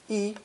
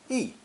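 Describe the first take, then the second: First: The pitch stays high and level. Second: The pitch falls sharply from high to low. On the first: It is used when counting. "when counting has a first tone" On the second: It comes before a first or second tone syllable. "before first and second tone characters, it uses fourth tone"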